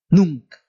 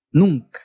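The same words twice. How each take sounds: The two takes are said the same way.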